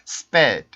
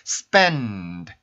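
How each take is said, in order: First: The n sound is dropped before the d. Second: A nasal n resonates before the d. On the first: The speaker calls it wrong. "N 발음 소리를 안 내고" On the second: The speaker calls it right. "코 울림이 어떤 느낌인지"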